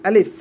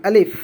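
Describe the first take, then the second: No difference in how they are said.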